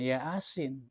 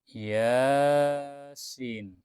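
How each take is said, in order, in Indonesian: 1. Vokal pertama dibaca pendek. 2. Vokal pertama dibaca panjang. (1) "bukan Yasin" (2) "Bacanya Yasin"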